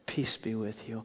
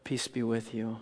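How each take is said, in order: First: Softer, calm and gentle; peaceful calm voice. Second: Softer, calm and peaceful; gentle Jesus voice. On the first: Jesus greeting locked-in disciples, peaceful and soft. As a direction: soothe the room quietly. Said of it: "his peaceful, calm voice". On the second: Jesus greeting frightened disciples, soft and calm. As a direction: speak peace quietly into the room. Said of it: "And you hear the voice". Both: Acted.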